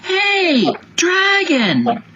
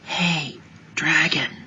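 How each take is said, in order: First: It is shouted very loudly. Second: It is whispered very softly.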